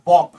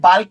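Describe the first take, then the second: First: The L sound is silent. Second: The L sound is clearly pronounced. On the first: The speaker calls it right. "এটোৰ আচল প্ৰনাউন্সিয়েচন হ'ব আপোনাৰ বক" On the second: The speaker calls it wrong. "বাল্ক বুলিও কয় মানুহবিলাকে"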